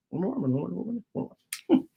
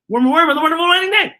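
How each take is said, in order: First: Quick and much softer, stumbling; fast tongue twister, soft. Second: Tongue twister, fast. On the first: Reader retrying the twister fast and softer. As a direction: mumble Worm and Worm on the wonderful wedding day fast. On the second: Reader racing the tongue twister, fast and higher. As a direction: rattle it off fast and high. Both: Shown as a demonstration. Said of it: "Say that five times fast".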